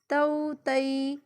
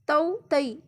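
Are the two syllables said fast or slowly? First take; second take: slowly; fast. First: The syllables are said slowly with a short pause. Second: The syllables are rushed together quickly. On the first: The speaker calls it right. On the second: The speaker calls it wrong.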